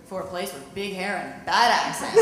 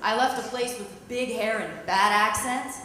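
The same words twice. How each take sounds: First: "bad" leaned on in the punchline; deadpan punchline hitting "bad"; stress on bad. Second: "left" punched with a rise; lightly stressed "left" versus the second line. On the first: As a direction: land the joke on "bad". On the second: Acted. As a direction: hit "left" to set up the contrast. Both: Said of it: "And I'm like".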